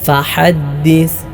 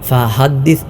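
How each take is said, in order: First: The h is tight from the throat. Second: The h is a plain light breath. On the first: The speaker calls it right. "തൊണ്ടയുടെ മധ്യഭാഗത്ത് നിന്നാണല്ലോ ഉച്ചരിക്കേണ്ടത്" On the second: The speaker calls it wrong. "ഹ ആയി പോകാനും പാടില്ല. ഫഹദ്ദിസ് എന്നല്ല"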